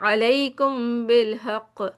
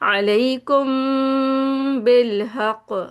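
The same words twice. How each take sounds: First: The m before the b is cut short. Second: The m before the b is held long. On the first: The speaker calls it wrong. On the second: The speaker calls it right.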